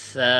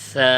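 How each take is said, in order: Both takes have the same delivery.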